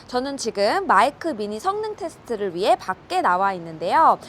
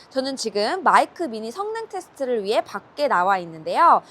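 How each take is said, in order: No difference in how they are said.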